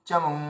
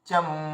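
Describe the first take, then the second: The two takes are said the same way.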